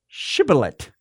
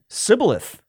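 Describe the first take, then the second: First: The word begins with an sh sound. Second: The word begins with an s sound. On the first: The speaker is a Gileadite. The speaker calls it right. "pronounced it with an SH at the beginning" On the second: The speaker is an Ephraimite. The speaker calls it wrong. "he could not pronounce it right"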